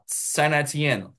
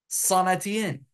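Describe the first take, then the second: First: It is said with an American English pronunciation. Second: It is said with an attempted French pronunciation. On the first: "this is the American way to say these names" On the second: "I can't even nail that one either"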